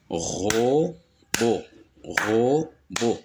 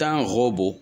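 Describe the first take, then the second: First: "robot" split into ro, pause, bot; syllable by syllable. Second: Said in the usual way. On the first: Shown as a demonstration. Teacher demonstrating two syllables, syllable by syllable. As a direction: say "robot" as two isolated beats. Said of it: "deux syllabes". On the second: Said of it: "Le mot robot contient".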